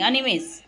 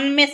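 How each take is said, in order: First: The middle vowel is kept, giving three syllables. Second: The middle vowel is dropped, giving two syllables. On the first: The speaker calls it right. "અનિમેષ એમ બોલવાનું" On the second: The speaker calls it wrong. "અનમેષ નહીં"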